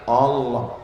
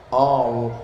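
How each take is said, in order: Both takes have the same delivery.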